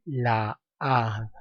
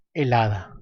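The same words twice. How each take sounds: First: Slow "la hada", the two a's clashing in a long vowel; cacophony. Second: Said in the usual way. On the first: Shown as a demonstration. Teacher demonstrating cacophony to students, drawn-out vowels. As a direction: drag out the meeting a's of "la hada". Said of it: "estoy produciendo cacofonía". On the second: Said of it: "optar por el artículo masculino".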